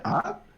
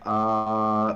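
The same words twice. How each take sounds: First: The pitch rises toward the end. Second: The pitch stays level throughout. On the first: The speaker is a little surprised. "It kind of goes up" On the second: The speaker is thinking about something. "the first tone is like, ah, uh, like you're thinking about something"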